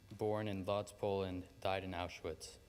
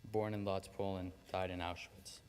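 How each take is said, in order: Both takes have the same delivery.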